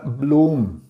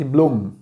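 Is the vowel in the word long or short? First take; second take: long; short. First: The vowel is drawn out long. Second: The vowel is kept short. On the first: The word is spelled with an H in the middle. "uma maneira de esticar um pouco a palavra" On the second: The word is spelled without an H in the middle. "Se não tivesse o H no meio da palavra, seria simplesmente"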